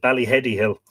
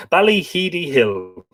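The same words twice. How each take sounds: First: "Ballyheady" with HED as in head, quickly; "Ballyheady" said bally-HED-ee, brisk; short-e pronunciation. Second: "Ballyheedy" with HEE as in heed, slow and higher; "Ballyheedy" said bally-HEE-dee, slowly; long-ee pronunciation. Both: Shown as a demonstration. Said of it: "or is it Ballyheady Hill".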